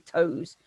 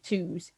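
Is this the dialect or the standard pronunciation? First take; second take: standard; dialect. First: It uses the modern standard vowel. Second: It uses the older, dialect vowel. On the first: This is the modern standard form. "We say toes" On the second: This is the older form, still used in dialect. "we don't say twos in standard English in received pronunciation anymore"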